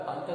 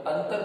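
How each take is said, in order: First: अंतर with a nasal vowel like अँतर, no clear n; wrong pronunciation. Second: अंतर with a clear n before त, as अन्तर; correct pronunciation. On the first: Teacher showing the wrong sound, nasal अंतर. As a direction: say अंतर through the nose, the wrong way. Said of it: "अंतर नहीं बोलते हम". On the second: Teacher giving the right form, clear n in अंतर. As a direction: say अंतर with a full n sound. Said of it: "अंतर बोलते हैं". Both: Shown as a demonstration.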